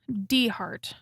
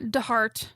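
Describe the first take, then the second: First: The first part is said on its own. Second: The first part blends into one word. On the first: The speaker calls it right. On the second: The speaker calls it wrong.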